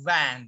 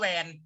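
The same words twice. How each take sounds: First: It starts with a buzzing teeth-on-lip V sound. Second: It starts with a rounded-lip W-like sound. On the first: The speaker calls it right. "ต้องออกเสียงว่า" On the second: The speaker calls it wrong. "นักเรียนไม่ออกเสียงว่า"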